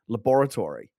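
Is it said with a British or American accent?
British. It is said the British way.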